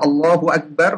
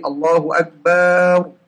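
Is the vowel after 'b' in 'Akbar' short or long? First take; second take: short; long. First: The vowel after 'b' is short. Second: The vowel after 'b' is lengthened. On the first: The speaker calls it right. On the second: The speaker calls it wrong.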